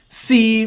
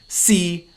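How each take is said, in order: First: The syllable is said in the third tone. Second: The syllable is said in the sixth tone. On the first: It means try. "C means try" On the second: It means be or is. "C means be or is"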